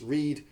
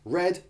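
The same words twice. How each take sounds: First: The vowel is long, as in 'reed'. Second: The vowel is short, as in 'red'. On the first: The action happens now or habitually. "present tense" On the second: The action happened in the past. "past tense, ... like a colour, R E D"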